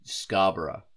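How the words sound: The name is pronounced in an Australian way. "in the Australian um, way of pronouncing it, we say Scarborough"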